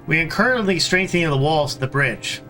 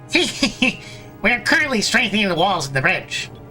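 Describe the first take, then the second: First: It is read in the speaker's normal voice. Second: It is read in a put-on character voice. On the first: The speaker calls it wrong. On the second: The speaker calls it right.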